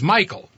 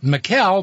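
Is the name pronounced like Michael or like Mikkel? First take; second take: Michael; Mikkel. First: The name is pronounced like Michael. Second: The name is pronounced like Mikkel. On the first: The speaker calls it right. "but he says it's Michael" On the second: The speaker calls it wrong. "who spells his name so I would mispronounce it"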